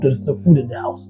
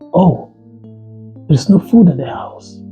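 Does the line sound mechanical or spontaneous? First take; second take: mechanical; spontaneous. First: It is dropped in flatly, like a recited line. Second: It sounds freshly reacted to, as if heard first time.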